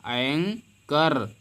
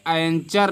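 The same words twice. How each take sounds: First: एंकर with a K, drawn out in two parts; slow एंकर, silent H; correct reading, syllable by syllable. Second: एंचर with a CH sound, "an-char"; wrong reading. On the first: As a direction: split एंकर slowly into "ang... kar". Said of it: "H को हम नहीं पढ़ने". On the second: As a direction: voice CH in the middle of एंचर. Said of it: "एंचर नहीं पढ़ेंगे". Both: Shown as a demonstration.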